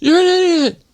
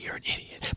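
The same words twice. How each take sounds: First: It is said loudly. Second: It is said quietly.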